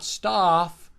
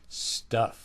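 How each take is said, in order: First: The vowel is not short and low. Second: The vowel is short and low. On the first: The speaker calls it wrong. "It's not stuff" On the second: The speaker calls it right. "is short and low"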